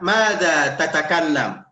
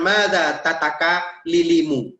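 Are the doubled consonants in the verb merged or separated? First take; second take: merged; separated. First: The doubled consonant is merged into one long sound. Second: The doubled consonant is split with a vowel between. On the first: The speaker calls it right. "Tapi ketika kita bilang" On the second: The speaker calls it wrong.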